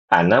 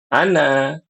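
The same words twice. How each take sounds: First: The final vowel is cut short. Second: The final vowel is held long. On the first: The word runs on into the next word. "Tapi kalau wasol, ana jadi pendek" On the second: The word ends the utterance with a stop. "Kalau dia berhenti, ana ya panjang"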